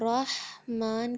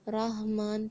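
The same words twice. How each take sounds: First: The h is harsh and made deep in the throat. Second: The h is light, like a plain breathy h. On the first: The speaker calls it right. "رحمان کے بجائے" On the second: The speaker calls it wrong. "ہا کو اکثر لوگ ہا کے ساتھ پڑھتے ہیں، جبکہ یہ کتنا غلط ہے"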